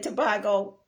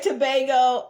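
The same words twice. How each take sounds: First: It is said in a Trinidadian pronunciation. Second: It is said in an American pronunciation. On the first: This is how the island's people say it. "I think y'all say Tobago" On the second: This is how the speaker's own people say it. "We say Tobago"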